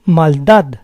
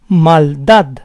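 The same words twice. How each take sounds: First: Said in the usual way. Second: Maldad split as mal-DAD; syllable by syllable. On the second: Shown as a demonstration. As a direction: say Maldad in parts, stressing DAD. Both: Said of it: "the stress is on the last syllable".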